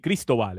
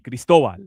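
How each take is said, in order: First: The name is pronounced with an English accent. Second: The name is pronounced with a Spanish accent. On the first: The speaker calls it wrong. "if it was in Spanish, it wouldn't be Cristobal" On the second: The speaker calls it right. "if it was in Spanish, It'd be Cristobal"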